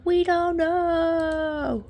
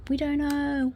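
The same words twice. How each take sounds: First: High, very slow sung notes, each word held; drawn-out sung refrain. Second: Soft, high sing-song on a stretched "we"; playful sing-song. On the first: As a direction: sing it out long and high. Same refrain stretched into singing. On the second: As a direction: lilt it softly and high. Playful repeated refrain, building. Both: Pretend.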